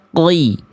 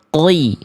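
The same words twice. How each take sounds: Both takes have the same delivery.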